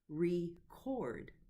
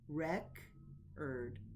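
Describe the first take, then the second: First: The stress is on the second syllable. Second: The stress is on the first syllable. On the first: It is used as a verb. "as a verb, it's broken into the syllables with the stress on the second syllable" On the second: It is used as a noun. "as a noun is stressed on the first syllable"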